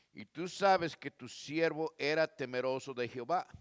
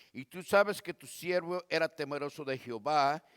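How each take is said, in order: Both takes have the same delivery.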